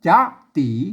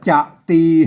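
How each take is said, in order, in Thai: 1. ทั้งสองพยางค์อ่านด้วยเสียงขึ้นทั้งคู่ 2. พยางค์แรกเสียงต่ำ แล้วพยางค์ที่สองเสียงกลาง (1) "ต้องอ่านตามหลักภาษาละนา" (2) "เสียงเอกเห็นไหมเสียงสามัญ"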